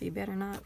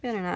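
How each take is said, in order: First: Teasing warning, light and easy; playful warning. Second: Better not, louder and falling, punched; firm mock warning. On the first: Pretend. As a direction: warn them off with a wink. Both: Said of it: "we got Don't Mess with Texas".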